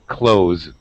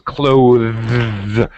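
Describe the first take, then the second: First: The word has no th sound before the s. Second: The word has a th sound before the s. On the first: "just like close the door" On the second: "correct pronunciation is clothes with the th sound"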